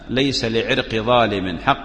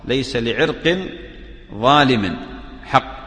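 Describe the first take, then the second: First: The word irq ends in -i with no -n. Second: The word irq ends in -in with an -n. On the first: The root belongs to an unjust person. "على الإضافة" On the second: The root itself is unjust. "على القطع"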